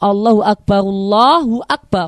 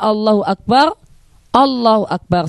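First: The first phrase runs straight into the second. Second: A short stop separates the two phrases. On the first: The speaker calls it right. "kita jelaskan dhammah dalam ra yang Akbar yang pertama" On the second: The speaker calls it wrong. "seolah-olah saktah"

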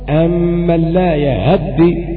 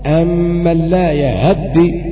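First: The vowel after h is cut short. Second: The vowel after h is cut short.

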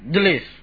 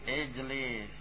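First: The word starts directly with a consonant cluster. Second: The word starts with an added short i vowel. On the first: The speaker calls it wrong. "Susah. Karena diawali dengan sukun" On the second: The speaker calls it right. "Hamzanya apa? Ijlis. Di bawah"

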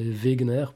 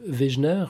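First: The name is said with German pronunciation. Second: The name is said with French pronunciation. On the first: "ça serait Wegener plutôt en version originale" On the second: "je crois que c'est comme ça qu'on le prononce en français"

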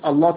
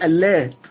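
First: The L sound is heavy and emphatic. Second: The L sound is light and thin. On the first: The speaker calls it wrong. "ما بقولش اللات والعزة" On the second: The speaker calls it right. "اللات هنا بتخفف اللام"

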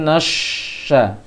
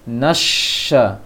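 First: The lips are rounded, making na sound like no. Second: The lips stay unrounded, keeping a clear na sound. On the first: The speaker calls it wrong. "jangan nasya" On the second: The speaker calls it right. "asya, nasya"

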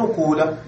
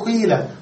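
First: The first vowel is a rounded u. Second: The first vowel is a plain unrounded i. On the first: The speaker calls it wrong. "تترك الضمة كما هي ولكن لا تكسر ما قبل الآخر فتقول قولة" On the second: The speaker calls it right. "تنقل الكسرة ثم تبدل الواو ياء فتقول قيلة"

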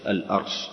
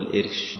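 First: The first vowel of the word is a. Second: The first vowel of the word is i. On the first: The speaker calls it right. "نقول الأرش على وزن الأرض" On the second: The speaker calls it wrong. "ما نقول الإرش"

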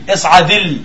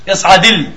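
The two takes are said the same way.

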